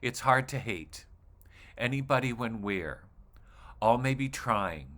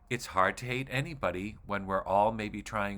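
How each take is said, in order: First: It breaks into halting pieces with pauses between them. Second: It flows as one sentence without internal pauses. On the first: The speaker calls it wrong. "if you read it like this, ... it sounds confusing and odd" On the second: The speaker calls it right. "I'm going to read this like it's a sentence"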